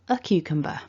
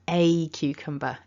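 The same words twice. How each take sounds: First: The word 'a' is reduced to a weak schwa. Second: The word 'a' is said as a full vowel. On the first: The speaker calls it right. "we can go weak with our a" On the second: The speaker calls it wrong. "It sounds too strong, it's too much"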